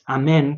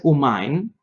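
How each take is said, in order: First: It is said the Sephardi way. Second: It is said the Polish Hasidic way. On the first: The speaker calls it right. "La pronunciación correcta para la palabra amén es amén" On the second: The speaker calls it wrong.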